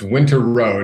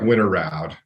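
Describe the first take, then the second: First: The last syllable rhymes with 'road'. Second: The last syllable rhymes with 'crowd'. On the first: This is how the family says the name. "is how we pronounce it" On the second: This is how the spelling suggests it is read. "it looks like Winter Round if if you're more phonetic"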